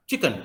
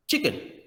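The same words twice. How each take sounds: First: चिकन with a full clear E vowel; चिकन said chi-ken, vowel sounded; chicken demo. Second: चिकन said high with the E vowel swallowed; चिकन as chik'n, no middle vowel; vowel dropped. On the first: Teacher demos the wrong way: चिकन with a full vowel. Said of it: "क्या आप चिकन बोलते हैं या चिकन". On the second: Teacher shows the right way: चिकन, vowel gone. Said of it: "ई वाला sound गायब हुआ". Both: Shown as a demonstration.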